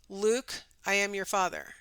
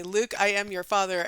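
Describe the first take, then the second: First: "Luke, I am your father?" asked with a rise on "Luke"; "Luke" rising like a question, then the line; questioning tune. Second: "Luke, I am your father" said firmly, falling at the end; a flat statement, "father" dropping at the close; stated as fact. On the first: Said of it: "that's not supposed to have a question mark". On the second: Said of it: "as an assertion, not as a question mark". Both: Shown as a demonstration.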